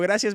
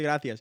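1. La c suena como una s. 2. La c suena como una th. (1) "cuando digo gracias me dice el Víctor que no se dice así" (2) "que se dice gracias"

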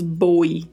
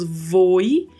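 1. A palavra começa com um som de b forte. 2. A palavra começa com um som de v bem claro. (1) "também não falamos boi" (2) "não falamos voi"

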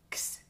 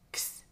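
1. La x se pronuncia de forma enfática como k más s. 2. La x se pronuncia de forma enfática como k más s.

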